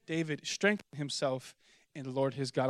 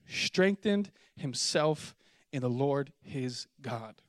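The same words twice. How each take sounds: First: Strengthened stressed again, quieter; soft echo leaning on strengthened; repeated for emphasis. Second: Slow emphatic reading. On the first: Preacher repeating the key verse softly. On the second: Preacher slowing down to stress the verse. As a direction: slowly lean on strengthened. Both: Shown as a demonstration. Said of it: "watch this".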